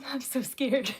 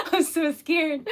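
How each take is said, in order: First: Said in the usual way. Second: Giggling while saying I'm so scared; laughing through the words. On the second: Real, not acted. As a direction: laugh it out, mock frightened.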